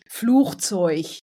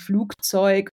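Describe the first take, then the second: First: The g is said like a ch sound. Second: The g is said as a hard g. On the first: This is a northern German dialect form. The speaker calls it wrong. "im norddeutschen Raum, da sagt man ja auch gern mal" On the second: This is the standard German form. The speaker calls it right. "da gilt es wirklich Flugzeug ... da ist das G in G"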